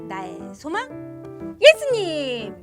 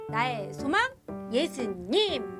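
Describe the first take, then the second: First: It is said more loudly. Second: It is said at a moderate volume.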